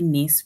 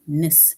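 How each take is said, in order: First: The suffix has a full, clear vowel. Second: The suffix has a short, reduced vowel. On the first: The speaker calls it wrong. "we don't say ness" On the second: The speaker calls it right. "we say ness, especially if you're going to add it to the base word"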